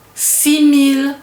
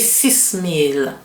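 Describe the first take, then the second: First: The final s of six is silent. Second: The final s of six is pronounced. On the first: The speaker calls it right. "Same thing with six" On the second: The speaker calls it wrong. "I don't say six mille"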